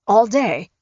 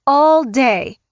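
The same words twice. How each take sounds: First: Said in the usual way. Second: Raised, louder disbelieving echo of "All day"; incredulous repeat. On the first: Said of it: "Dave tried to stay firm". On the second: A narrator's reading. Mother repeating the son-in-law's words, incredulous and raised. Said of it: "she repeated".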